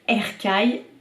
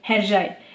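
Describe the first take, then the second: First: The middle consonant is a hard k sound. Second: The middle consonant is a soft j sound. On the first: The speaker calls it wrong. "j'ai dit Erkai pendant un mois" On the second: The speaker calls it right. "le C c'est J. Donc Herjai"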